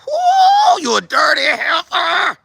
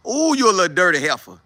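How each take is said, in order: First: Hammed-up high, loud squeal of rage; acted outburst, very high and strained; boiling-over fury. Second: Said in the usual way. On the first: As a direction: shriek it in mock exasperation. Acting out holding back anger at her.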